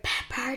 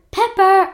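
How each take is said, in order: First: Soft, hushed call for a dog; hushed, tentative call; whispered call. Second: High, loud call for a dog; calling out loudly, pitched high; yelled call. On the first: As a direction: call the dog's name quietly, barely risking it. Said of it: "I whispered". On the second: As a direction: shout the name to bring the dog running. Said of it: "I yelled". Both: A narrator's reading.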